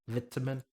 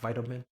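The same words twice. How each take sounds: First: The word is said with a British pronunciation. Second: The word is said with an American pronunciation. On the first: The speaker calls it right. "we pronounce it like we're British" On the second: The speaker calls it wrong.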